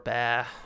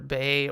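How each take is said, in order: First: The vowel sounds like the one in bah. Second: The vowel sounds like the one in bay. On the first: "It's either Bay or Ba" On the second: "It's either Bay or Ba"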